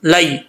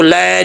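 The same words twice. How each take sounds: First: लै as a gliding la-ee; correct vowel. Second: लै stretched as a flat open ae; mistaken vowel. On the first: Shown as a demonstration. Teacher gives the right vowel, careful pronunciation. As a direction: glide from a to ee in लै. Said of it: "लाम ज़बर या लाई". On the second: Retold or imitated. Teacher shows what not to read, mistaken vowel. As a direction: say लै as one long ae, without glide. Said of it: "नहीं पढ़ना".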